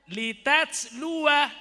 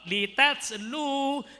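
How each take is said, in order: First: The word ends with a final 'wa' syllable. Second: The word ends with a short 'u' sound. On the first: The reader stops at this word. "jika wakaf" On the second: The reader continues into the next word. "jika wasol"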